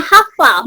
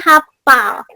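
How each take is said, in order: First: The middle consonant is an f sound. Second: The middle consonant is a p sound. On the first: The speaker calls it right. "Yang betulnya hafal memakai F" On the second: The speaker calls it wrong. "non bakunya hafal"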